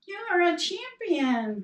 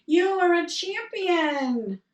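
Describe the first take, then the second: First: The echo replying. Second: High, loud, slow call of "You are a champion"; father shouting praise. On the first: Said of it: "came back". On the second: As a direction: proclaim it to the mountains. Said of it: "father said". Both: Retold or imitated.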